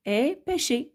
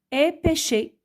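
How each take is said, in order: First: Said in the usual way. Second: Est pêché pointed out higher; stressing the verb. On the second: Shown as a demonstration. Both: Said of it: "Et regardez".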